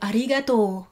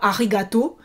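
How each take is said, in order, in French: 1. La voyelle finale o est longue. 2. La voyelle finale o est courte. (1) "vous allongez bien le dernier « o »" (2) "vous ne dites pas « arigato »"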